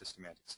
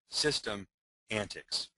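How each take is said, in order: First: It is said fast as one word. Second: It is split into two words with a break. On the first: It sounds like one exciting word. "If you say it really fast, it sounds like a really exciting word" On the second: It shows that systems display antics. "if you break it apart"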